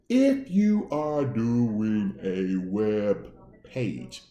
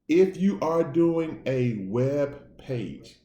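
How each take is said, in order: First: It is said very slowly. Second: It is said at normal speed.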